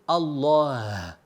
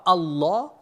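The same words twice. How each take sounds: First: The word ends with an audible breathy h. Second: The word ends with no audible h. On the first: The speaker calls it right. "il y a un ha" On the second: The speaker calls it wrong. "ce n'est pas Allah"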